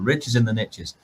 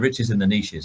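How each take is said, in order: First: Niches is said the American way, rhyming with riches. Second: Niches is said the British way, without rhyming. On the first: The phrase works as a catchy rhyme. The speaker calls it right. "is something that they'll say a lot in America" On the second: The phrase loses its effect. The speaker calls it wrong. "it doesn't quite work as well"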